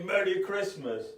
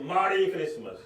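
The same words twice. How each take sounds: First: Said in the usual way. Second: "Merry" said as "Mari", with an open a; altered "Mari" pronunciation. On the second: Retold or imitated. Man slyly returning the greeting, "Merry" twisted into "Mari". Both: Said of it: "Mari meaning bad".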